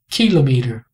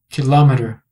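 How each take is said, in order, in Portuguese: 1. A sílaba tônica é a primeira. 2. A sílaba tônica é a segunda. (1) "com a força na primeira sílaba, ki" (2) "com a sílaba forte, a sílaba tônica... na sílaba L"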